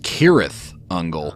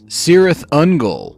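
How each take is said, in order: First: The name begins with a hard K sound. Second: The name begins with a soft S sound.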